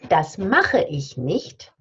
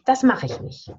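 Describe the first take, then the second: First: Every sound is said in full. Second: Some sounds are dropped and run together.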